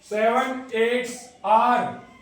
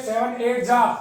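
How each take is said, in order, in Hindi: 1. अंतिम 'आर' की ध्वनि साफ़ तौर पर बोली जाती है। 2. अंतिम 'आर' की ध्वनि छोड़ दी जाती है। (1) "इस तरीके से बोलते हैं" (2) "आर इसमें बोला नहीं जाता"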